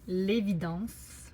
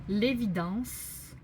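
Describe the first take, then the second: The two takes are said the same way.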